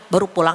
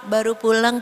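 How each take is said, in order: First: It is said in a sharp, scolding tone. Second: It is said in a sweet, coy tone. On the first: The speaker is annoyed that he came home late. "sama suami sendiri malah tegas, galak gitu" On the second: The speaker is flirting and welcoming him. "banyak yang manja sama suami orang"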